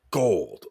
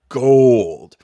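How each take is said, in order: First: Said in the usual way. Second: "gold" stretched out and much louder; emphatic GOLD. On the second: Real, not acted. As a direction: punch "gold" loud and let it ring. Repeats the word for emphasis.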